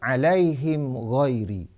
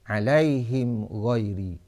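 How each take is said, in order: The two takes are said the same way.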